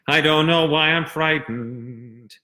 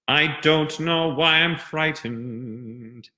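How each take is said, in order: First: The consonants are slurred and mumbled together. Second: The consonants are tapped crisply and clearly. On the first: The speaker calls it wrong. "That I call mushmouth" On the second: The speaker calls it right. "when I'm applying the diction rules"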